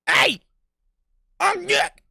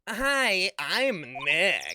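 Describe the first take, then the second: First: It is yelled loudly. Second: It is said at a normal, quiet volume.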